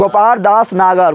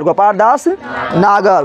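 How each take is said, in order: First: Slow, each word spaced out; slow dictation. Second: Very slow, every syllable stretched; very slow dictation. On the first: Teacher giving the answer to students, slowly. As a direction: spell the name out slowly for the class. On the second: Teacher repeating the answer for students, very slowly. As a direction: drag the name out so they write it down. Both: Shown as a demonstration. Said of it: "अरे बोल जल्दी".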